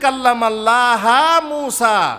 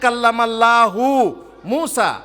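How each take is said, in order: First: Allah ends with an 'a' vowel. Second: Allah ends with a 'u' vowel. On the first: The speaker calls it wrong. "এরা তাহরিফ করে বলছে" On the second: The speaker calls it right. "প্রথমে আয়াতে কি আছে?"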